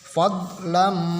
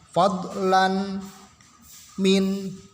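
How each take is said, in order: First: The n merges into a nasalized, doubled m. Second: A clear n sound is heard before the m. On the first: The speaker calls it right. "tapi tanwinnya masuk ke mim. Fadlam, ini memakai guna" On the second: The speaker calls it wrong. "Tidak dibaca fadlan eh, maaf fadlan min, tidak"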